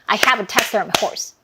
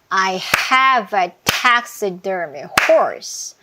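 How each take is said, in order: First: It is spoken at the fastest clapped pace. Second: It is spoken at a slow, steady clapped pace. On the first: "더 빨라질 수 있죠" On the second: "빨간 부분에서 박수 치면서 들어가 볼게요"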